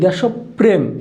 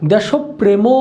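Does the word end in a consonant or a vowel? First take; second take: consonant; vowel. First: The word ends on a closed consonant sound. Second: The word ends with an added vowel sound. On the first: The speaker calls it right. "আমরা উচ্চারণ করি দেশপ্রেম" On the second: The speaker calls it wrong. "আমরা কিন্তু বলি না দেশপ্রেম"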